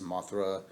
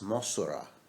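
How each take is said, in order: First: The middle consonant is a th sound. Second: The middle consonant is an s sound. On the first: It is the English form of the name. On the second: It is the Japanese form of the name.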